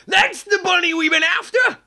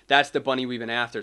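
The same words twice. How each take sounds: First: Much higher, louder rooster father triumphant. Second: Said in the usual way. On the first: Acted. Father Rooster spotting the bunny. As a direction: crow it like you caught him. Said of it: "let me give that line". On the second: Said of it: "Father Rooster saying".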